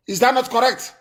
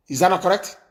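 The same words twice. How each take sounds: First: Higher-pitched, pressing repeat of the question; insistent question. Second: Said in the usual way. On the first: Real, not acted. Host challenging his listeners to agree, insistent.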